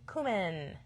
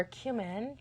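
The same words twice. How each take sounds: First: "cumin" with a plain oo, no y-glide; cumin as KOO-min. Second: "cumin" with a y-glide, like "cue"; cumin as KYOO-min. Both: Shown as a demonstration. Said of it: "depending on how you say it".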